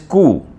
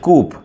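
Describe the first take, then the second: First: The final p sound is silent. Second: The final p sound is pronounced. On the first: The speaker calls it right. "but it is not coop. It is coup" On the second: The speaker calls it wrong. "some people pronounce it or might pronounce it coop"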